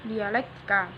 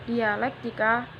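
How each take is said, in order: Both takes have the same delivery.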